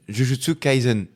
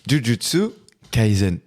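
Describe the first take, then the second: First: The title is said at normal speed. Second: The title is said more slowly.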